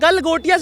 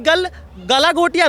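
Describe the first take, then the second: First: The name has no extra repeated syllable. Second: The name has an extra repeated syllable inside. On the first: The speaker calls it right. "गल गोटियाज university है" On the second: The speaker calls it wrong. "नहीं है"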